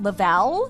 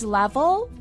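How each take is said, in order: First: The word is said like 'la-vell'. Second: The word is said like 'level'. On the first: The speaker calls it wrong. "not Lavelle" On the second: The speaker calls it right. "It's Level"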